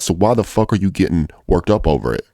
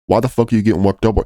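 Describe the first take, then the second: First: Said in the usual way. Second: Higher, faster, pushing it home; exasperated repeat. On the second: Real, not acted. Trading coach scolds greedy traders, exasperated and faster. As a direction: fire the question back at them harder.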